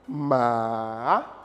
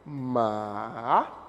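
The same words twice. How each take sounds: The two takes are said the same way.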